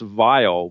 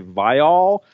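First: The name is pronounced in the plain, usual way. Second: The name is pronounced in a deliberately careful way. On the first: This is how the name is usually said. "it's typically pronounced Vile" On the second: The other host avoided the usual pronunciation. "You kind of went out of your way to say Vile"

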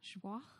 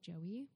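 First: It is said with a French-style pronunciation. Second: It is said like the English name Joey. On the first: The speaker calls it right. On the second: The speaker calls it wrong.

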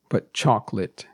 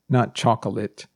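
First: The word is said with two syllables. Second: The word is said with three syllables. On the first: The speaker calls it right. "we pronounce it as if it only has two syllables" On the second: The speaker calls it wrong. "although it may think it has three syllables"

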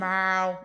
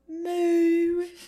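First: It is said in a Boston accent. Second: It is said in a British accent. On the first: "I'm trying to figure out how to do the Boston accent" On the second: "A British cow"

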